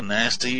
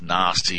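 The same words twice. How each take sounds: First: The word is said in an American accent. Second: The word is said in an Australian accent. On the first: "nasty if you're an American" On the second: "nasty if you're in Australia"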